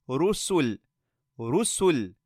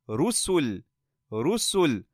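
Both takes have the same delivery.

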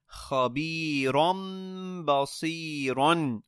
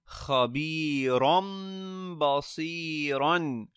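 Both takes have the same delivery.

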